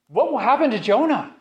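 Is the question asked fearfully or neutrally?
fearfully. The question is asked with a hint of terror.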